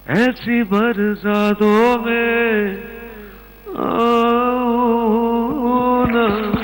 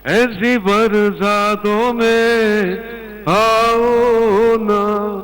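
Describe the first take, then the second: First: It is said softly, like a pleading request. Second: It is said bluntly, like a demand.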